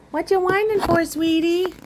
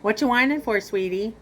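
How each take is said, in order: First: A cooing voice for a whining cat. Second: Said in the usual way. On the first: Real, not acted. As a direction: coo it up high to the pet. Baby talk to the cat.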